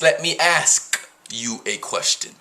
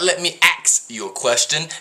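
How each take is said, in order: First: The word ask ends with s then k. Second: The word ask sounds like ax. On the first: The speaker calls it right. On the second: The speaker calls it wrong. "it's not"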